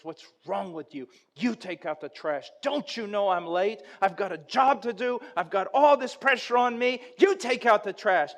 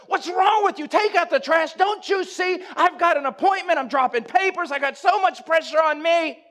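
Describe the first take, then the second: First: Annoyed, then building louder and higher; an annoyed husband's complaint rising into a loud protest; irritated retort. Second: Yelled much higher and louder throughout; a harried husband screaming back at his wife about the trash; furious shout. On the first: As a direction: brush her off, getting more worked up each line. Husband snaps at wife. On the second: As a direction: explode at her, totally justified. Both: Retold or imitated.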